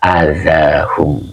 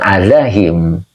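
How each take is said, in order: First: The final syllable is said with a 'u' vowel. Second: The final syllable is said with an 'i' vowel. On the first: The speaker calls it right. "Ini dibaca ala azahum begitu" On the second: The speaker calls it wrong. "bukan azahim ya"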